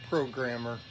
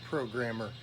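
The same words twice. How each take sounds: No difference in how they are said.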